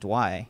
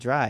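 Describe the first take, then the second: First: The word begins with a 'dw' sound instead. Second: The word begins with a clear 'dr' sound. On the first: "It sounds like they're saying dwy" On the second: "it doesn't sound like they're saying dry"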